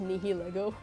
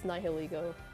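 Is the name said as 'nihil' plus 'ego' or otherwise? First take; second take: otherwise; nihil-ego. First: The name is not split as nihil plus ego. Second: The name is said as nihil plus ego. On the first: The speaker calls it wrong. "when I was a kid, I thought it was pronounced Nihilego" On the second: The speaker calls it right. "but I know it's Nihilego, because Nihil and ego"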